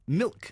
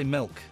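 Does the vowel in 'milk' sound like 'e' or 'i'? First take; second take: i; e. First: The vowel sounds like the i in 'bit'. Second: The vowel sounds like the e in 'bed'. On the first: "it's milk" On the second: "I say it with an E"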